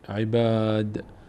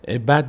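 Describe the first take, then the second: First: The vowel after the b is long. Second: The vowel after the b is short. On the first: The speaker calls it right. "کش پیدا میکنه" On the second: The speaker calls it wrong. "عباد نمیشه"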